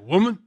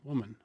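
First: It is said in a harsh, disrespectful tone. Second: It is said in a warm, tender tone. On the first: The speaker looks down on the person addressed. The speaker calls it wrong. "not like that at all, not disrespectful at all" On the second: The speaker feels close affection for the person addressed. The speaker calls it right. "It was more like when you look at your mom, you say, "Mom,""

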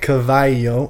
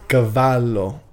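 First: The double L is said like a Y sound. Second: The double L is said as a clear L. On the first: The speaker calls it wrong. "It's not cavallo" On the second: The speaker calls it right. "it's cavallo. In Italian, you don't do the y sound with two L's"

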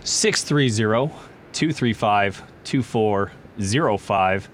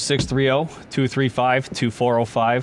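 First: The number is said more slowly. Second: The number is said at normal speed.

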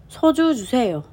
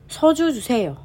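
No difference in how they are said.

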